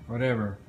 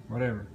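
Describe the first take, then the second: Both takes have the same delivery.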